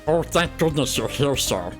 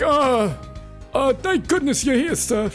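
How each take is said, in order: First: It is a voice imitating Stitch. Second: It is a cartoon Luigi-style voice.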